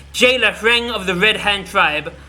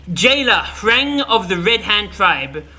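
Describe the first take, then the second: The two takes are said the same way.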